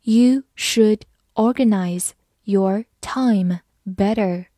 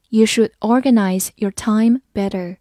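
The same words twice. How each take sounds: First: Slow, careful read-aloud, every word distinct. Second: Said in the usual way. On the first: Shown as a demonstration. Teacher reading a sentence slowly to students. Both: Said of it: "好，慢慢来读。".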